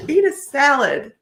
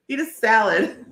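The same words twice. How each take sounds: First: Laughing through it, higher; giggling while repeating it. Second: Said in the usual way. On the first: Real, not acted. Repeating the card's punchline to viewers while laughing.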